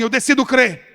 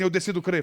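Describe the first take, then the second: First: It is said louder and stronger. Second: It is said at normal loudness.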